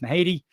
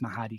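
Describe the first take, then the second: First: The name is said the Irish way. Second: The name is said the Scottish way. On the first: "In Ireland, the name is pronounced Mahady" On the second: "if you go to Scotland, I believe it's pronounced Mahadi"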